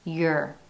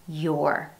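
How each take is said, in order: First: The vowel is reduced to a schwa. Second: The word has a full, clear vowel. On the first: "in an unstressed syllable, it's your, uh" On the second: "When pronounced in isolation"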